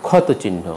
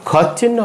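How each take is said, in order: First: ক্ষতচিহ্ন with "o" after t; ক্ষতচিহ্ন in four syllables; linking vowel sounded. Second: ক্ষতচিহ্ন with t fused into ch; no linking vowel. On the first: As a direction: say ক্ষতচিহ্ন as "khawto-chinno". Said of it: "উচ্চারণ হবে". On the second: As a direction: say ক্ষতচিহ্ন as "khawt-chinno". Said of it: "হবে না". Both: Shown as a demonstration.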